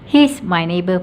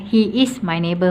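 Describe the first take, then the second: First: He is is contracted into one syllable. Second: He is is said as two full words. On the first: "pun boleh" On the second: "pun boleh"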